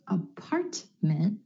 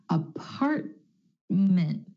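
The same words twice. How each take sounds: First: The middle T is fully released. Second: The middle T is held, not released. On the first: The speaker calls it wrong. "Instead of" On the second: The speaker calls it right. "the held T"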